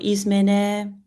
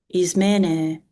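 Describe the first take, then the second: First: The stress is on the last syllable. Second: The stress is on the second-to-last syllable. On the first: The speaker calls it wrong. "The stress does not go on the last syllable" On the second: The speaker calls it right. "the stress is likely to go on the penultimate syllable"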